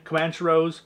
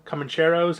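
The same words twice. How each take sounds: First: Comancheros with "man" as in the word man; first pronunciation attempt. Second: Comancheros with a clear "chair" sound; second pronunciation attempt. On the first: Collector trying out a film title, Comancheros with a "man" sound. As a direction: say Comancheros as "kuh-MAN-sher-ohs". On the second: Collector retrying a film title, Comancheros with a "chair" sound. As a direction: say Comancheros as "kuh-mun-CHAIR-ohs". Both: Real, not acted.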